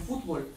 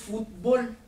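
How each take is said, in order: First: The stress is on the first syllable. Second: The stress is on the last syllable.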